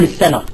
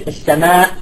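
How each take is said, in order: First: "السماء" ending on a short open vowel; hamza dropped. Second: "السماء" with a long vowel closed by a glottal stop; full final hamza. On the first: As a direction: leave off the final hamza of "السماء". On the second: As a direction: finish "السماء" on a sounded hamza. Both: Shown as a demonstration. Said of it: "الثالثة بالحذف".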